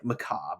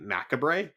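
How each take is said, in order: First: It is said the usual way, unlike its spelling. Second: It is read as spelled, every letter sounded. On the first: The speaker calls it right. "that's not what it says though" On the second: The speaker calls it wrong. "calling it macabre because it's like M A C A B R E"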